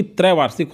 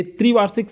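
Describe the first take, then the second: First: त्रैवार्षिक starting with open "trai"; correct form demonstrated. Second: त्रिवार्षिक starting with "tri"; tempting wrong form. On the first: Teacher gives students the correction, correct form demonstrated. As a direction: say त्रैवार्षिक as trai-vaar-sik. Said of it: "जबकि त्रैवार्षिक होता है सही". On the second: Teacher quotes what seems right, tempting wrong form. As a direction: say त्रिवार्षिक as tri-vaar-sik. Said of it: "ये त्रिवार्षिक सही लगता है". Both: Shown as a demonstration.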